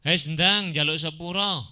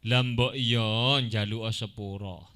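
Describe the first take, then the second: First: Higher, louder rough order; harsh demand. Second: Slow, coaxing polite ask; gentle request. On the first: Teacher demonstrates a rude demand for an apology, harsh. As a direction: bark it as a demand. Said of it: "tapi intonasi yang kasar". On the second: Teacher demonstrates a polite request, gentle and slow. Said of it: "meminta kepada orang lain secara halus". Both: Shown as a demonstration.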